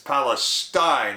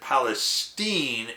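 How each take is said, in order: First: It has the usual Middle Eastern pronunciation. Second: It has the local northeastern Ohio pronunciation. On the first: It names the region in the Middle East. "it's spelled the same as Palestine in the Middle East" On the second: It names the town in Ohio. "we pronounce it Palestine in northeastern Ohio"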